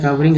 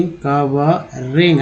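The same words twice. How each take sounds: First: Said in the usual way. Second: कवरिंग split slowly into syllables; slow syllabified. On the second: Shown as a demonstration. (कवरिंग को धीरे-धीरे अक्षरों में तोड़कर) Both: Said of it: "आईएनजी को इंग बोलते हैं".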